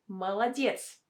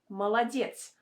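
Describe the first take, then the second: First: The unstressed vowels are pronounced as A. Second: The unstressed vowels are pronounced as A.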